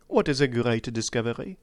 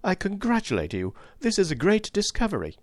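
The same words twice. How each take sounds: First: Said in the usual way. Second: High-pitched, bursting congratulation; excited. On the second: A narrator's reading. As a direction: let pent-up excitement burst out. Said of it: "My pent-up excitement burst forth".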